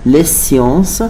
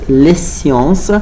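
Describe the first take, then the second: No difference in how they are said.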